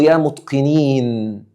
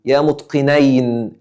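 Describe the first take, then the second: First: Slow, with يا pushed forward; stress on يا. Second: Slow, weight falling on متقنين; stress on متقنين. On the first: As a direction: lean on يا and draw out متقنين. (نبرة على يا بنطق بطيء) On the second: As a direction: land hard on متقنين at a slow pace. (نبرة على متقنين بنطق بطيء) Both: Shown as a demonstration. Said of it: "أقول له".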